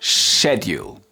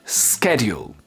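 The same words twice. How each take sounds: First: It is said in a British accent. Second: It is said in an American accent.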